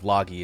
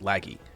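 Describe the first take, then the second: First: The first vowel is an open 'ah' sound. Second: The first vowel is a sharp 'a' sound. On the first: The speaker calls it wrong. "kind of a soft ah instead of a sharp a" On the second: The speaker calls it right. "It's just sharp a's instead"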